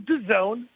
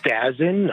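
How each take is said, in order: First: The name is said as 'Da Zone'. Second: The name is said as 'Dazin'. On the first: The speaker calls it right. "but it is DAZN" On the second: The speaker calls it wrong. "a lot of people say Dazin"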